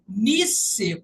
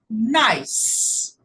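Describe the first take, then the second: First: The final E is sounded as an extra vowel. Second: The final E is silent, with one syllable. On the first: The speaker calls it wrong. "ao invés de falar nice, como está escrito" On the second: The speaker calls it right. "a gente fala nice"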